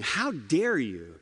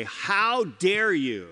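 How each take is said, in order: First: Slower, steady, grave "How dare you?" with no rise; solemn rebuke. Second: Slow, stretched, rising indignant How dare you; indignant rebuke. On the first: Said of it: "he's not joking about it". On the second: Preacher voicing Paul's rebuke to the church, slow and indignant. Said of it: "We'd say it like this today". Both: Shown as a demonstration.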